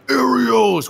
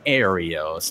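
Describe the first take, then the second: First: It sounds full of sheer rage. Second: It sounds fond but exasperated.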